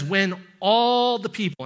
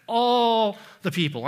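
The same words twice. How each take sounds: First: "all" leaned on, falling; stress on all. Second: "all" set apart and stressed. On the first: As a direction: hit the word "all" firmly. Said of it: "I want you to notice that". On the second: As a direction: punch "all" in "all the people". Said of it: "underline the word all". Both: Shown as a demonstration.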